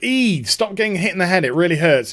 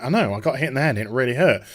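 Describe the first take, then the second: First: Lightly voiced complaining father; a mock fatherly telling-off; imitated scolding dad. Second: Lower, offhand mock reply; imitated dismissive daughter. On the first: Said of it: "her dad's just like". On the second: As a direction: brush dad off in a lower voice. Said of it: "And she's like".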